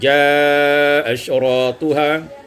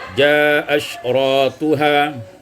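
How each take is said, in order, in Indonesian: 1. Vokal panjang dibaca dengan panjang sedang. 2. Vokal panjang dibaca pendek.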